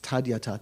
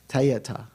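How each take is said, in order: First: The word is said with a d sound. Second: The word is said without a d sound. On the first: This follows the original Sanskrit form. "in Sanskrit, it's tadyata" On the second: This follows the Tibetan reading convention. "If it were a Tibetan word, it'd be pronounced te or ta"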